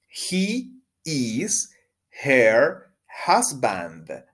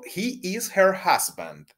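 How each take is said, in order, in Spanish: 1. La oración se dice despacio. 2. La oración se dice rápido. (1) "Pronunciemos juntos despacio" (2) "un poco rápido"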